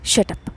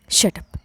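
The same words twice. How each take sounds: First: "shut up" snapped with a touch of irritation; irritated shut up. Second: Whispered shut up. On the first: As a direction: cut her off with "shut up", mildly annoyed. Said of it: "మరింత చిరాకు వచ్చింది". (చిరాకుగా "shut up" అనడం) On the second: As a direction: hiss "shut up" under her breath in anger. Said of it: "అని కోపంగా చెప్పి". (గుసగుసగా కోపంగా "shut up") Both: A narrator's reading.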